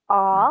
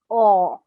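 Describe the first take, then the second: First: The vowel is an open, unrounded 'ah'. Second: The vowel is a rounded 'aw'. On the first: The speaker calls it wrong. "It's not ah" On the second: The speaker calls it right. "it's awe"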